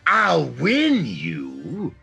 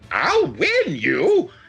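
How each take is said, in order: First: It is said in a serious, menacing way. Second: It is said in a silly, playful way.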